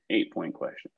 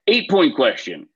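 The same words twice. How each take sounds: First: Softer, lower echo to himself; quiet repeat. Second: Louder, higher announcement; announcing. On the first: Quiz host repeating the question to himself, much softer. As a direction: murmur it back under your breath. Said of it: "host repeats it softly". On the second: Quiz host calling out the next question to the teams, louder. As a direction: call it out to the room. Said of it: "host announces next question". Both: Shown as a demonstration.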